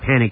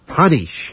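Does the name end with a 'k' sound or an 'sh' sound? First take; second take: k; sh. First: The name ends with a 'k' sound. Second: The name ends with an 'sh' sound. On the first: The speaker calls it wrong. "I'm always saying panic, and that's how you spell it" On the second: The speaker calls it right. "but you say it Panish"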